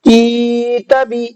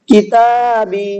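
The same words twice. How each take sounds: First: The ka syllable is drawn out, ta short. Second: The ta and ba syllables are drawn out. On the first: The speaker calls it wrong. "काफ खींच गया, ता नहीं खींचा" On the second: The speaker calls it right. "ता और बा दोनों खींचेंगे, काफ नहीं खींचेगा"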